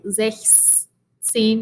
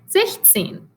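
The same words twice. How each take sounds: First: An s sound is heard before zehn. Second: No s sound is heard before zehn. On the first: The speaker calls it wrong. "we don't say sechzehn because it's hard to pronounce" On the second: The speaker calls it right. "We say sechzehn"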